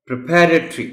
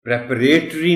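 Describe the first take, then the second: First: پریپریٹری as "pri-PA-ruh-tree"; correct پریپریٹری. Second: پریپریٹری as "prep-uh-RAY-tree"; long "ray" in the third syllable of پریپریٹری; mispronounced پریپریٹری. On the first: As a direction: model پریپریٹری with a high, loud second syllable. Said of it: "اور وہ word ہے". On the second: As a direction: say پریپریٹری the wrong way, with a loud "RAY". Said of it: "نہیں ہے". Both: Shown as a demonstration.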